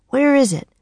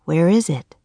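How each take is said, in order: First: Lightly voiced boy, anxious question; worried boy asking; Jack's voice. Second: Said in the usual way. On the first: Jack asking Annie for the diamond, anxious. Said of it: "said Jack". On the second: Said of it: "Where is it?" said Jack".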